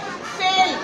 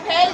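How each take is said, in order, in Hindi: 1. स्वर 'e' जैसी बंद ध्वनि है। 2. स्वर 'ai' जैसी खुली ध्वनि है। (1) "एक बच्चा बोलता है फेल" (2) "जबकि वो लफ्ज हमारा है फैलना"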